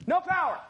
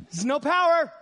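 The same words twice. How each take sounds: First: "No" raised and hit hard; stress on No. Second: Said in the usual way. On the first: Shown as a demonstration. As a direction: punch the word "No" higher.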